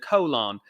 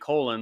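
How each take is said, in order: First: The word is said in a British accent. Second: The word is said in an American accent. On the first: "the British accent of, of it all" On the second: "like we would say uh, in the uh, American dialect"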